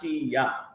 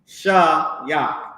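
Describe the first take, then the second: First: The syllable starts with an 'ee' vowel. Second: The syllable starts with an 'ah' vowel. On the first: The speaker calls it wrong. "they put the she on it too much" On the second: The speaker calls it right. "It's Shah-Yak"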